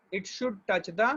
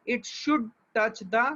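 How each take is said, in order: First: Said in the usual way. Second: Should stretched out slowly and stressed; should touch, slow and weighty; emphatic slow. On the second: Shown as a demonstration. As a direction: lean hard on should, drawing the words out.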